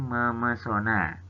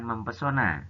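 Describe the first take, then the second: First: No p sound follows the m sound. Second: A p sound follows the m sound. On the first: The speaker calls it right. "Huruf P pada kata pesona menjadi luluh" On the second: The speaker calls it wrong. "Bukan mempesona"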